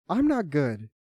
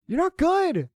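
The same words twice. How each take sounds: First: Said in the usual way. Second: High, forceful verdict; heated, high-pitched jab at a teammate; angry put-down. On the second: Real, not acted. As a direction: shout GOOD at a high pitch. Berates teammate, then admits same.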